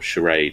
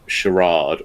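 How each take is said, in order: First: It is said in an American pronunciation. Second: It is said in a British pronunciation.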